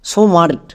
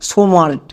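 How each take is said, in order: No difference in how they are said.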